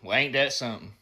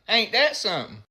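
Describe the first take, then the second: First: It sounds serious and sympathetic about something sad. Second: It sounds curious and eager to hear more.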